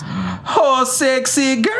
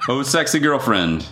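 First: It is said in a put-on character voice. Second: It is said in the speaker's ordinary voice.

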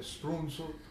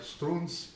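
First: It is said with a U, Sicilian style. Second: It is said as strunz, Neapolitan style.

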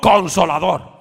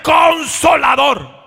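First: The word is said at normal, softer volume. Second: The word is said loudly.

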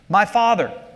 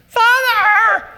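First: It is read calmly and plainly. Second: It is called out as an exclamation.

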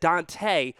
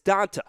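First: The name is said with an extra E sound. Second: The name is said without any E sound. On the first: The speaker calls it wrong. "I felt really bad because I said Dont'a Hightower" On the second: The speaker calls it right. "It's Dont'a. Okay, there is no E in there"

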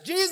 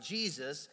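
First: It is shouted loudly. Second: It is said calmly at normal volume.

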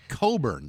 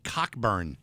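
First: The name is said without a 'k' sound. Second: The name is said with a 'k' sound. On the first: This is how the bearer says his name. "But he pronounced it Coburn" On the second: This is how the spelling reads. "if you read it out, it said Cockburn"

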